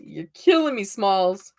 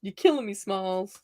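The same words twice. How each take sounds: First: A light hint of the film line; movie quote. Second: Repeated lightly, trailing off softer; movie quote. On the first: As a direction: toss off the quote playfully. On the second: Retold or imitated. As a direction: say it again, fading out. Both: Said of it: "that's how you can tell I'm a Gen Xer".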